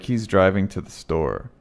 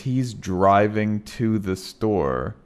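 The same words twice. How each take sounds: First: The word 'to' is reduced to a quick t. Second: The word 'to' is said fully and clearly.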